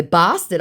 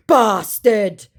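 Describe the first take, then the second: First: Said in the usual way. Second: Raised, loud put-on insult; mock angry scammer. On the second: Scammer swearing at the baiter, mock angry. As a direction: throw it out in mock outrage.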